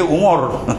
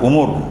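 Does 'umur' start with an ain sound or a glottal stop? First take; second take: ain sound; glottal stop. First: It starts with a tight throat ain sound. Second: It starts with a light glottal stop. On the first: It means age or lifespan. "Kalau ain tu usia kita" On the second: It means affairs or matters. "Baca dengan hamzah"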